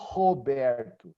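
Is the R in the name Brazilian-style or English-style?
Brazilian-style. The R is a breathy, h-like sound. It is how the name is said at home. "I don't say my name is Roberto"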